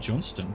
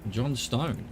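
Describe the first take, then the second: First: The second syllable is a reduced 'stun'. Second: The second syllable is a full 'stone'. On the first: "But I would pronounce that Johnston, probably" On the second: "Realise John Stone"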